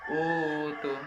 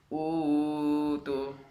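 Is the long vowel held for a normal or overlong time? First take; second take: normal; overlong. First: The long vowel is held for two counts. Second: The long vowel is stretched far too long. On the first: The speaker calls it right. "yang betul ini cuma dua harokat" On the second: The speaker calls it wrong. "itu kan terlalu panjang harokatnya"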